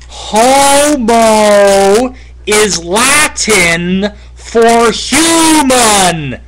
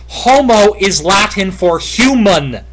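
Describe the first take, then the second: First: It is said very slowly. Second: It is said at a normal pace.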